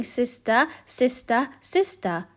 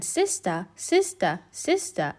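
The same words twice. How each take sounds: First: Calling sister into the cave; duck calling. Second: Softer, echoing repeat of sister; cave echo. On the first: Duck calling her sister in the cave. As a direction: call it into the dark. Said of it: "She quacked". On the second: Echo answering the duck from the cave, soft echo. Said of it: "a voice from the cave came back". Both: A narrator's reading.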